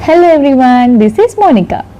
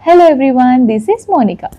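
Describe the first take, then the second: First: Noise suppression is at its middle setting. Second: Noise suppression is at its highest setting. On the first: "అది level టూకి వెళ్తుంది" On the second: "ఇప్పుడు level త్రీలో ఉంది"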